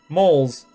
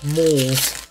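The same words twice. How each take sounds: First: The vowel sounds short, like 'mulls'. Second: The vowel sounds long, like 'moles'. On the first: The speaker calls it wrong. "I said it like it was spelled M-U-L-L-S" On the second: The speaker calls it right. "There we go"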